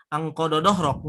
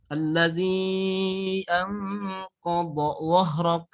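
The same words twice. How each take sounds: First: Anqadha dhahrak said quickly and flat, the emphatic sounds lost; wrong version. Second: Allazi anqadha dhahrak drawn out slowly with heavy emphatic letters; slow careful recitation. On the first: Teacher showing how not to recite. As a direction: rush it the wrong way. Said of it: "nggak seperti itu". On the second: Teacher reciting a Quran verse to show the sound. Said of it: "Beda ya cara pengucapan". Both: Shown as a demonstration.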